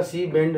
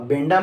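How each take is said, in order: First: "सी बेंड" ending on the consonants, no final aa; correct pronunciation. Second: "बेंडा" with an added aa ending; wrong pronunciation. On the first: Teacher models the scientist's name, correctly pronounced "सी बेंड". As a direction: say "सी बेंड", stopping on the nd. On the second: Teacher warns students off a wrong name, mispronounced "बेंडा". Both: Shown as a demonstration. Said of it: "अब बेंडा मत बोलिएगा".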